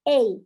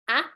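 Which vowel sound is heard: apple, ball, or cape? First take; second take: cape; apple. First: It is the long vowel of cape. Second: It is the short vowel of apple. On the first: "in cape, it will be more like a A" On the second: "you would read A for Apple"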